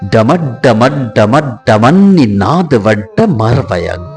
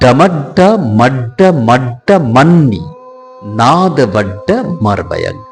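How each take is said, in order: First: The phrase runs together without breaks. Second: The phrase is split into separate chunks. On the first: "একসঙ্গে যদি উচ্চারণ আপনি করে থাকেন তাহলে এরকম হবে" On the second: "আমি আপনাদের সামনে ভেঙে ভেঙে দেখিয়েছি"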